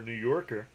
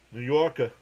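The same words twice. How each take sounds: First: Said in the usual way. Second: "Yorker" as "Yawkuh" in a New York accent; New York accent, drop the final r in "Yorker". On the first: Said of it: "You have the accent a little bit". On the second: Shown as a demonstration. Answering Miss Gina about the accent, playful New York accent. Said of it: "the accent a little bit for a New Yorker".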